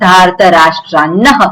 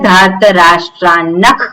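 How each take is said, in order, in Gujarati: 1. શબ્દ શ્વાસયુક્ત h અવાજથી અંત પામે છે. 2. શબ્દ kh અવાજથી અંત પામે છે. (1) "કોઈ પણ શબ્દ ના હોય તો ... વિસર્ગ જ બોલાય" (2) "ત્યાં વિસર્ગનો ખકાર કે કકાર જેવું ઉચ્ચારણ ત્યાં કરવાનું છે"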